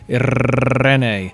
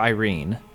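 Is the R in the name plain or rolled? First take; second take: rolled; plain. First: The name has a strongly rolled R. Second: The name has a plain English R. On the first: The effort to say the name properly is overdone. "you're imitating her accent... You probably don't do a rolled R every day" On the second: No effort is made to say the name properly. "if you don't even try and you call her Irene"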